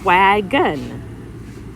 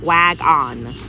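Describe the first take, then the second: First: The second syllable has a reduced schwa vowel. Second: The second syllable has a full 'on' vowel. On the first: The speaker calls it right. "I'm going to try a schwa sound" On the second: The speaker calls it wrong. "if I were to say it the way it sounds, on"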